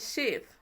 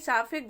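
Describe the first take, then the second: First: It is said as one syllable, sayf. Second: It is said as two syllables, saa-fe. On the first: The speaker calls it right. "तो इसको हम शेफ पढ़ेंगे" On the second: The speaker calls it wrong. "साफे गलत है"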